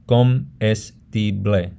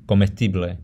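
First: Comestible split slowly into co-mes-ti-ble; syllable by syllable. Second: Said in the usual way. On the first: Shown as a demonstration. Teacher shows how a word breaks up, syllable by syllable. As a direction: say comestible broken into separate syllables. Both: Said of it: "how you break up a word".

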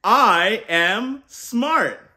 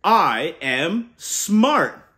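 First: Slow, loud and higher; rousing call to repeat. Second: Slow, slightly louder declaration; proud affirmation. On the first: Uncle leading kids to repeat, loud and slow. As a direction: stretch it out so kids join in. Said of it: "say it with me". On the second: Uncle modelling the affirmation for kids, slow and sure. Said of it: "we boost our brains with". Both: Shown as a demonstration.

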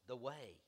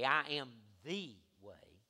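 First: Said in the usual way. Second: "the" said as a drawn-out, weighty "thee"; slow down and lean hard on "the"; stress on THE. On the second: Shown as a demonstration. Not a way.

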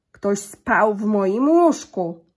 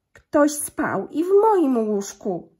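First: Very slow, much louder grumbling papa bear; gruby zrzędliwy głos. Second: Very slow, higher, much louder mama bear; cieńszy głosik. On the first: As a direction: boom it out slowly like an angry big bear. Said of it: "grubym, zrzędliwym głosem". (tata niedźwiedź grzmi bardzo wolno i głośno) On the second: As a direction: call it slowly in a lifted, loud mama-bear voice. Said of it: "cieńszym głosikiem". (mama niedźwiedzica woła wolno, wyżej i głośno) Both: A narrator's reading.

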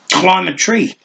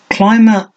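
First: Casual suggestion. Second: Stuttered amazement. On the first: Flick casually tells Minion to climb a tree. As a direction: toss it off lightly, as if obvious. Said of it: "Flick suggested casually". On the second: Minion stunned by Flick's suggestion, stuttering amazement. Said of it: "stuttered the other in unabashed amazement". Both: A narrator's reading.

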